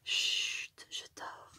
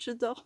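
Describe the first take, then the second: First: Put-on hushed whisper, as if a child is sleeping. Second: Said in the usual way. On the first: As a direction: breathe it out, barely voiced. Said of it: "je parle tout bas du coup". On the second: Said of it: "Il y a écrit chut".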